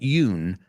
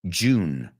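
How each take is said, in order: First: The word begins with a Y sound. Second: The word begins with a J sound. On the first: The speaker calls it wrong. "not Yoon" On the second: The speaker calls it right.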